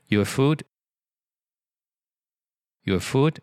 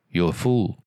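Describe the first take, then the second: First: The final d sound is lightly pronounced. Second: The final d sound is left off. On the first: The speaker calls it right. "你就稍微发一下的啊" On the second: The speaker calls it wrong. "如果你不发的就是food"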